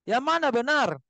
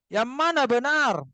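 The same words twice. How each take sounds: The two takes are said the same way.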